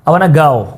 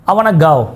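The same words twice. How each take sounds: The two takes are said the same way.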